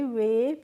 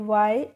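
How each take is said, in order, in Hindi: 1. स्वर साधारण 'eh' है। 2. स्वर 'eye' की तरह फिसलता है। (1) "इस तरीके से हम इनको पढ़ेंगे" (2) "इस तरीके से नहीं प्रोनाउंस करना है"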